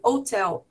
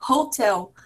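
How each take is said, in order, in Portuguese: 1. O h no início é omitido. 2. O h no início é pronunciado. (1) "No inglês em Cockney" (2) "no inglês é, padrão"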